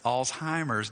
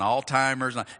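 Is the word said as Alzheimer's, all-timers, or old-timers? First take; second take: Alzheimer's; all-timers. First: It begins with 'alts' and has no 't' sound. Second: It begins with 'all' and has a 't' sound. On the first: The speaker calls it right. "It's Alzheimer's disease" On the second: The speaker calls it wrong. "and all-timers"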